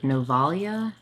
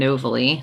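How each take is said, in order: First: The name ends with a 'ya' sound. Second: The name ends with an 'ee' sound. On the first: The speaker calls it right. "Is it supposed to be like Novalia?" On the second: The speaker calls it wrong. "The way I read it, it was like Rosalie and Novely"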